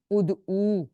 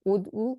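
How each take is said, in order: First: "ادعو" with a drawn-out final oo; long final vowel. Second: "ادعو" with a short final u; short final vowel. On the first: Teacher shows the plural form, long final vowel in "ادعو". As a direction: hold the last u of "ادعو" long. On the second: Teacher shows the singular form, short final vowel in "ادعو". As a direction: keep the last u of "ادعو" brief. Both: Shown as a demonstration. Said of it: "اس difference سے ہم پڑھیں گے واحد جمع کو".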